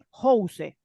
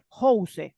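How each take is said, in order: First: It is read out sound by sound as spelled. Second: The same.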